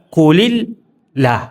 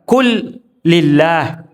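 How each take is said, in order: First: A single short l links 'qu' to 'illah'. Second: A long doubled l follows 'qu', then 'lillah'. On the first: It means: say, it is God. The speaker calls it right. "Yang benar adalah kulillah atau kul Allah" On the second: It means: say, it belongs to God. The speaker calls it wrong. "Kul lillah berarti salah"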